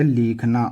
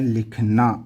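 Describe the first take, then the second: First: The first vowel is long. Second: The first vowel is short. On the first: The speaker calls it wrong. "यदि आप ऐसे लिखोगे इसको तो ये हो गया लिखना" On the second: The speaker calls it right. "ये होता है लिखना"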